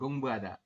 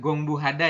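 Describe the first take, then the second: First: No h sound is heard before the ending. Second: An h sound is heard before the ending. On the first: The speaker calls it right. "Gongbu ada seperti itu" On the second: The speaker calls it wrong. "Bukan gongbu hada ya"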